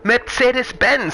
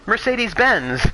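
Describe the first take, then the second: First: It is said with a German pronunciation. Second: It is said with an English pronunciation.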